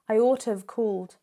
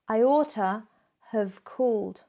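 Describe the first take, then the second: First: The word have is reduced to sound like of. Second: The word have is said with its full sound.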